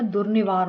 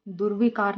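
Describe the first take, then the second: First: दुर्निवार said "durnivaar"; दुर्निवार with ni-vaar; correct form. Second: दुर्विकार said "durvikaar"; दुर्विकार with vi-kaar; wrong form. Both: Shown as a demonstration. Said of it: "दुर्निवार होता है".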